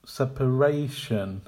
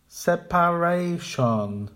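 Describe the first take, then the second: First: "Separation" as sep-uh-RAY-shun; correct with schwa. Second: "Separation" slow with a full PA; incorrect full vowels. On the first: Teacher modelling the correct "Separation". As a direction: stress RAY in "Separation", reduce the rest. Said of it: "Make the weak syllables quiet". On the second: Teacher modelling the wrong "Separation". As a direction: give each syllable of "Separation" a full vowel. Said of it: "the incorrect pronunciation". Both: Shown as a demonstration.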